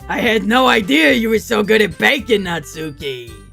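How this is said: It is said in an old man voice.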